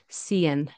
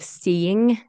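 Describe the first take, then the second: First: The word ends with an n sound. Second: The word ends with an ng sound.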